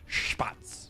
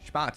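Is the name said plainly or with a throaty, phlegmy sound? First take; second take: throaty; plain. First: The name is said with a harsh, phlegmy throat sound. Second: The name is said plainly, without throaty force. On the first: The speaker calls it right. "We need more phlegm in that cat. ... sound like you're expectorating" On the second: The speaker calls it wrong. "It's not Spatz"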